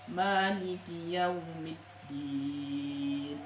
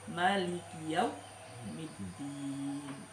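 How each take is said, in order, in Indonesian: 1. Vokal pertama pada Maliki dibaca panjang. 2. Vokal pertama pada Maliki dibaca pendek.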